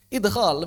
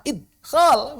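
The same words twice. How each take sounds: First: "Idkhol" with an easy bouncing d; relaxed "Idkhol", d released before kh; with qalqalah. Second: "Idkhol" with the d stopped dead; strained, high, loud "Idkhol", no bounce on d; without qalqalah. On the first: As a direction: let the d echo in "Idkhol". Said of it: "Lebih enak idkhol". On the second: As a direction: force "Idkhol" out with a blocked d. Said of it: "Ngomong idkhol tanpa qalqalah". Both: Shown as a demonstration.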